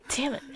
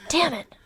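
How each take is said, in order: First: Breathy whisper on "Damn it"; hissed quietly to yourself; whispered curse. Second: "Damn it" voiced out, pitched up with a falling end; annoyed, fully voiced "Damn it"; frustrated curse. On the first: Acted. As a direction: say "Damn it" under your breath, voiceless. First take of the curse. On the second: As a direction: spit out "Damn it" in open frustration. Second take of the curse.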